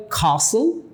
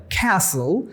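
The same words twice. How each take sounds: First: Castle with a long open AH, KAH-sul; British pronunciation. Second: Castle with a flat short A, KASS-ul; American pronunciation. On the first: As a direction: say castle the British way, silent t, broad ah. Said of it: "ব্রিটিশরা বলে". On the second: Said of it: "আমেরিকানরা বলে". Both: Shown as a demonstration.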